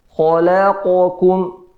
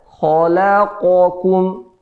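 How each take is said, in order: Both takes have the same delivery.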